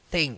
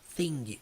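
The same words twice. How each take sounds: First: It ends in ng with no released g. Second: It ends with an audible released g sound. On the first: The speaker calls it right. "você não pronuncia a letra G" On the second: The speaker calls it wrong. "Eu não falo thing"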